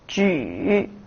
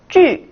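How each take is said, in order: First: The pitch dips low, then rises. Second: The pitch falls sharply from high to low.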